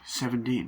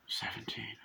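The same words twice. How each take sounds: First: Said in the usual way. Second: Stunned whisper. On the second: Retold or imitated. Repeating the drunk boy's age back, in a stunned whisper. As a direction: drop to a very soft, voiceless whisper.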